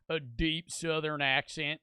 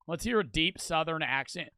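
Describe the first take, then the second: First: Slow, deep Southern drawl; deep Southern accent. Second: Said in the usual way. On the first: Shown as a demonstration. Streamer trying out the requested accent, slow Southern drawl.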